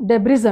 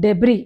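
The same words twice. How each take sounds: First: డెబ్రిస్ with the final S sounded; voiced hiss closing డెబ్రిస్; common mispronunciation. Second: డెబ్రీ ending on an open "ree"; long final vowel in డెబ్రీ, S dropped; silent S. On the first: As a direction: say డెబ్రిస్ as deb-riz. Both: Shown as a demonstration. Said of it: "ఆ ఎస్ silent".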